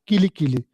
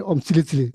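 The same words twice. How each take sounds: First: Kili Kili with hard k sounds; correct mantra pronunciation. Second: Om Sili Sili with s sounds instead of k; mispronounced mantra. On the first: Shown as a demonstration. Teacher confirming the proper way to say the mantra, correct K pronunciation. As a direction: say "Kili Kili" as ki-li ki-li, K not S. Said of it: "that's the correct way to pronounce". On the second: Retold or imitated. Man repeating the mantra he was told is wrong, S for K. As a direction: say "Sili Sili" as si-li si-li after the Om. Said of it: "That's incorrect way to pronounce".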